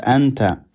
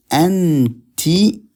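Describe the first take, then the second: First: Anta with an open a ending, set against anti; masculine anta. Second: Anti with a clear i ending, lifted high; feminine anti. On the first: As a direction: say anta as the wrong choice, with an open final a. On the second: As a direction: stress the final i of anti for a woman. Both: Shown as a demonstration.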